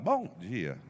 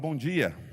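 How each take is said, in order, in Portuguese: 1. A voz racha como a de um adolescente mudando de voz. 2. A voz está firme e uniforme. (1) "eu falava bom dia, estava trocando de voz" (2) "eu não falava bom dia"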